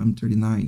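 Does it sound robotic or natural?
natural. It sounds smooth and natural.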